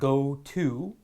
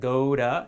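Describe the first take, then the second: First: The word 'to' is said in full. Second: The word 'to' is reduced to a weak sound. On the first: The speaker calls it wrong. "instead of go to" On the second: The speaker calls it right. "Go to instead of"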